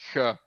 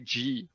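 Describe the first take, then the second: First: The G is said with a throaty, rasping sound. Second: The G is said with a soft J-like sound. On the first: "And we say G" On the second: "You say G with like uh, a J"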